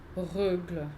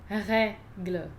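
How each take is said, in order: First: The e vowel is not pronounced open. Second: The e vowel is pronounced open. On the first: The speaker calls it wrong. "Não estou dizendo règle" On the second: The speaker calls it right. "Aqui eu abri o som do E"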